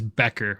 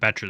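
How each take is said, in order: First: The middle consonant is a k sound. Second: The middle consonant is a ch sound. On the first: The speaker calls it right. "It is Becker, like with a K. ... that's the correct way to say it" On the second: The speaker calls it wrong. "instead of calling him Betcher this whole time"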